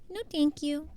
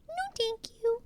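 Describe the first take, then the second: First: Said in the usual way. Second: Much higher, put-on voice; high mock-polite refusal. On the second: Streamer turning down chat in a high put-on voice. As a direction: repeat it up high as a silly refusal.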